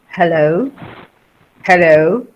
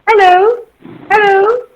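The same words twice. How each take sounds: First: The voice is deep, resonating from the chest. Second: The voice is thin, without chest resonance.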